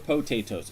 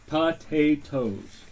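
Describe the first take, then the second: First: The first syllable sounds like 'po'. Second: The first syllable sounds like 'pa'. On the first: "or po?" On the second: "Is it pa"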